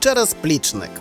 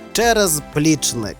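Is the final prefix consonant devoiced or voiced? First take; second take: Devoiced; Voiced. First: Said quickly, with the prefix consonant devoiced. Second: Said slowly, with a voiced z in the prefix. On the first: "у швидкому темпі допускається оглушення кінцевого приголосного" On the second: "Під час повільного, роздільного мовлення ... маємо вимовляти дзвінко"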